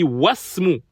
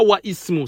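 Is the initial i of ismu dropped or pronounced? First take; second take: dropped; pronounced. First: The w runs straight into the s sound. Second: The i of ismu is pronounced after wa. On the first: The speaker calls it right. "on dit wasmu. On passe du waw direct au sin" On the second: The speaker calls it wrong. "on dit pas wa ismu, ça c'est une erreur"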